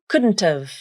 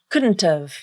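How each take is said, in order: First: The T is a full, clearly released T. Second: The T is a full, clearly released T.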